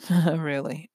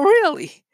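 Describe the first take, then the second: First: It sounds doubtful and dismissive, deflating the claim. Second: It sounds eager and interested, inviting more. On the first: The listener wants to shut the topic down. "You've taken out a lot of fire out of them by just simply changing your tone" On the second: The listener wants the other person to keep going. "you want to get them pumped"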